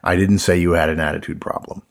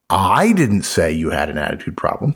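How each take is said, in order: First: It is read flat with no word stressed. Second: The word I carries strong stress. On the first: "he just gives a flat reading of the statement" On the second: "Somebody else said it, right? Exactly, right"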